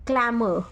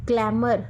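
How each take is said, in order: First: क्लैमर with no r; British glamour. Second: क्लैमर with the r sounded; American glamour. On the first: Teacher gives the British क्लैमर, r dropped. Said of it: "ये Britishers बोलते हैं". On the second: Teacher gives the American क्लैमर, r sounded. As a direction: say क्लैमर with a clear r. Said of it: "आर को बीच में include Americans करते हैं". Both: Shown as a demonstration.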